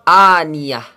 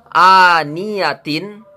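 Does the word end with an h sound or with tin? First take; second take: h sound; tin. First: The word ends with a quiet h sound. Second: The word ends with a full tin sound. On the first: The reader stops at this word. "Tin ini menjadi ha sukun" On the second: The reader continues without stopping. "Kalau tidak berhenti, maka tetap dibaca seperti adanya"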